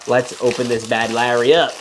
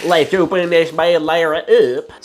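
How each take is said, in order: First: Said in the usual way. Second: Hammed-up country tow-truck voice; Tow Mater. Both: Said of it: "Let me say it like Tow Mater".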